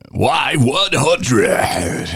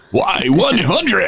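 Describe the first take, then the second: First: Very slow, stretched, higher DJ call; radio jock call letters. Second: High, slow, drawn-out DJ shout of the call letters; radio jock call letters. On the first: DJ imitating his old on-air call, stretched high. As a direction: drag out Y one hundred like a jock. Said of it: "I would just puke it up". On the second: DJ retelling his on-air call, high drawn-out jock voice. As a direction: belt the station name like a rock jock. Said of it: "I went and I puked it up". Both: Retold or imitated.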